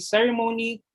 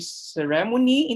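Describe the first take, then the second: First: The stress follows the American English pattern. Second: The stress follows the Philippine English pattern. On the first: "But in the American English, we'll say ceremony" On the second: "sometimes we say ceremony in Philippine English"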